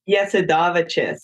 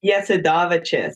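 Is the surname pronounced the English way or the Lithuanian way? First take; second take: Lithuanian; Lithuanian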